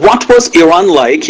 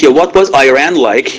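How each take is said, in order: First: Iran said ee-RAHN, Persian vowels; Persian-style Iran. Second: Iran said eye-RAN, American vowels; American-style Iran. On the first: Teacher showing learners the Persian way to say Iran, ee-RAHN. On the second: Teacher contrasting the American eye-RAN for Iran. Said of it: "من عمدن گفتم ایران". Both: Shown as a demonstration.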